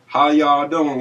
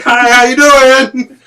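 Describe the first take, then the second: First: Lightly imitated Kentucky greeting; easygoing mock Southern hello at talking volume; Kentucky accent. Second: Hollered, high, long-drawn Kentucky greeting; Kentucky accent. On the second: Retold or imitated. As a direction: holler a hammed-up Southern hello, stretching every word. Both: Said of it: "I lived in Kentucky myself".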